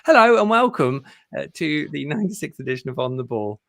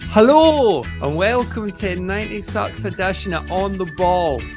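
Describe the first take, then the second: First: It is said in his normal accent. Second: It is said in a Scottish accent.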